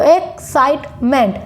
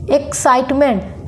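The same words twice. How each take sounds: First: excitement in three beats with short pauses; split into three syllables. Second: Said in the usual way. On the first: Shown as a demonstration. Teacher counting three syllables, excitement broken up. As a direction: separate each syllable of excitement. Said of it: "जितनी बार हम pause लेंगे".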